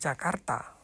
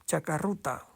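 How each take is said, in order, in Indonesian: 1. R dan t bertemu tanpa vokal. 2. Vokal u disisipkan di antara r dan t. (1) "Orang Jepang tidak bisa mengatakan Jakarta" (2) "Antara R dan T itu diseseli lagi dengan U"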